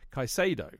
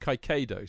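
First: The middle consonant is a soft s sound. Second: The middle consonant is a hard k sound. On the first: "rather than a silent C, which would be Kaisado" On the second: "I pronounced it with a noisy C"

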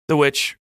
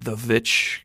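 First: The word begins with a W sound. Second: The word begins with a V sound.

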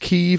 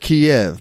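First: The name is said in the Kyiv form. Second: The name is said in the familiar Kiev form. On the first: This is the newer correct name. The speaker calls it right. "I think it's Kyiv" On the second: This is the habitual older name. The speaker calls it wrong. "We all call it Kiev, but I think we've been saying it wrong"

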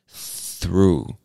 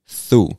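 First: The TH sound at the start is strong and full. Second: The TH sound at the start is weakened. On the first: "put your tongue between your teeth to make that strong TH sound" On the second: "a lot of us actually just say through"

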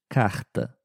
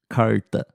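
First: The R is a strong throaty sound. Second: The R is curled back in the mouth. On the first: This is how it is said in Rio de Janeiro. "No Rio de Janeiro, ... com um R forte" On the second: This is how it is said in São Paulo. "Em São Paulo, ... que é um R bem peculiar"

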